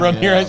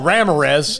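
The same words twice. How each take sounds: First: The name is said with a Spanish pronunciation. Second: The name is said with an American English pronunciation. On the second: "we take liberties"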